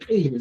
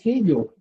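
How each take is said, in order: First: "ello" as the form not used in Chanca Quechua; plain-sounding "ello", cited as the wrong form; wrong pronunciation. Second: "ello" said alone as the Chanca form; "ello" set apart, in Chanca Quechua pronunciation. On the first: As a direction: demonstrate the rejected "ello". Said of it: "no se dice ello". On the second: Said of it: "se dice". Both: Shown as a demonstration.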